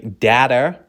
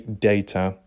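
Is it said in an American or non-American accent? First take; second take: American; non-American. First: It is said with an American accent. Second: It is said with a non-American accent.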